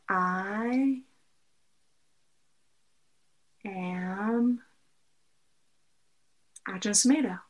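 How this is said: It is spaced out with pauses between words.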